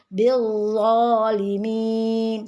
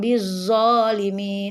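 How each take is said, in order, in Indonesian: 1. Bunyi z itu berat dan tebal. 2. Bunyi z itu ringan dan tipis. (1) "Tapi bizzalimin" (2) "Jadi bukan bizzalimin, bukan zo"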